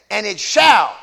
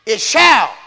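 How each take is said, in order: First: "shall" pressed firm and louder; "shall" said as a firm promise; stress on shall. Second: "shall" hit louder and falling; "shall" stressed with a falling close. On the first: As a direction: lean hard on "shall". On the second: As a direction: land firmly on "shall". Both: Shown as a demonstration. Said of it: "not might".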